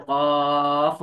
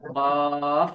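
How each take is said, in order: First: The word ends with a strong push of air. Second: The word ends with a strong push of air.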